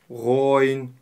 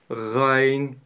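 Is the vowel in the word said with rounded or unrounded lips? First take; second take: rounded; unrounded. First: The vowel is said with rounded, pushed-out lips. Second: The vowel is said with open, unrounded lips. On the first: The speaker calls it wrong. "некоторые вытягивают губы" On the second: The speaker calls it right. "Это правильное произношение"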